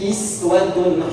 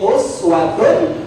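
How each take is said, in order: First: The word begins with an 'i' vowel. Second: The word begins with a 'u' vowel. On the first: This follows the Warsh or Qalun reading from Nafi'. "kita baca pakai iswah" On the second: This follows the Hafs reading from Asim. "Kita baca pakai Hafiz dari Asim pakai uswah"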